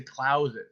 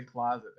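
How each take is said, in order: First: "Closet" with an ow vowel, klowz-it; Missouri-style "Closet", first vowel as in cow; Missouri pronunciation. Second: "Closet" with an open ah vowel, klahz-it; non-Missouri pronunciation. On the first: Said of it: "They say". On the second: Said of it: "They don't say". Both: Shown as a demonstration.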